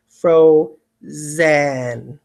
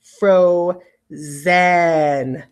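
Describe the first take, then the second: First: Frozen with a clear zen ending; over-pronounce frozen for spelling; spelling pronunciation. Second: Frozen with a full clear e in the last syllable, fro-zen; spelling pronunciation. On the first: Teacher repeating frozen so students hear the vowel. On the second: Teacher saying the word as it is spelled for dictation. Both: Shown as a demonstration. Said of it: "I'm going to really say to spell the vowel".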